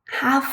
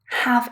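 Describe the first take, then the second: First: The word has a full, strong vowel. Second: The same.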